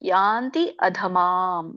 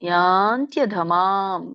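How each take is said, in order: First: The two words are said separately with full vowels. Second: The two words are merged into one sound sequence. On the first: It shows the two underlying words. "ಎರಡು ಪದ ಆಗುತ್ತೆ" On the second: It is the form used when reciting. "ಕೂಡಿ ಹೇಳಿ"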